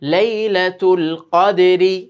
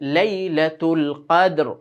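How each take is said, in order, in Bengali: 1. শেষ শব্দটি ছোট 'i' স্বর দিয়ে শেষ হয়। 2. শেষ শব্দটি 'r' ব্যঞ্জন দিয়ে শেষ হয়।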